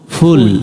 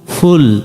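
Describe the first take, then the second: First: The first consonant is a soft sound near p. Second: The same.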